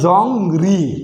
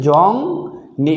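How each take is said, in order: First: The second syllable begins with an r sound. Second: The second syllable begins with an n sound. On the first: The speaker calls it wrong. "আগে ছিল" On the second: The speaker calls it right. "এখন হয়েছে জং নি, এটাই কিন্তু সঠিক উচ্চারণ"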